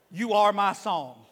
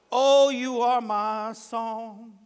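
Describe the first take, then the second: First: Said in the usual way. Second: Loud, slow, drawn-out singing; sung worship line. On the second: Shown as a demonstration. Worshipper singing the one part he knows, sung worship line. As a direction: sing it out, holding the notes. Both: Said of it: "But one part I know".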